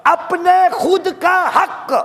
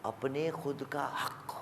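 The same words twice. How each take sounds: First: High, loud and slow; the booming first take; loud emphatic declaration. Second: Much lower and far softer; the quiet second take after the booming one; hushed echo. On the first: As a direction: proclaim it to the whole hall. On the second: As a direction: let it sink in almost under the breath. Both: Acted. Preacher repeats phrase, loud then hushed.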